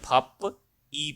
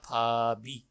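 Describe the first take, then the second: First: The final consonant stays separate before the vowel. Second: The final consonant links into the next syllable. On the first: It sounds like a non-native reading. The speaker calls it wrong. "अगर हम non native की तरह पढ़ेंगे इसको तो ये फप ई पढ़ेंगे" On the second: It sounds like a native speaker. The speaker calls it right. "ये बोला जाएगा फाबी"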